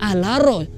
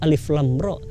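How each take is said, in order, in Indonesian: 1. Huruf-huruf itu digabung menjadi satu kata pendek. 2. Setiap nama huruf diucapkan terpisah dan lengkap. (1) "orang-orang yang enggak pernah belajar tentang kaidah ilmu tajwid" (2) "bukan Alif Lam Ra"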